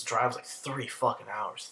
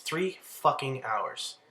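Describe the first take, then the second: First: Said in the usual way. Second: Three fucking hours, each word slowed right down; Three fucking hours said slowly and deliberately; slow emphatic repeat. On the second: Real, not acted. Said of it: "repeated for emphasis".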